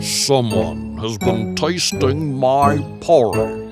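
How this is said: It is said in a great big voice.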